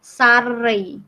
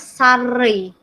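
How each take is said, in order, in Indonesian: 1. Kata ini berakhir dengan bunyi yang dilembutkan. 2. Kata ini berakhir dengan bunyi yang dilembutkan.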